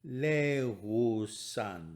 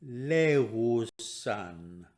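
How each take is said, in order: The two takes are said the same way.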